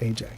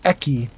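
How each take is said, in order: First: The name sounds like 'Ay-jay'. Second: The name sounds like 'Eh-kee'. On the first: The speaker calls it right. "You pronounce it A J" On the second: The speaker calls it wrong. "gets pronounced E C or Eki"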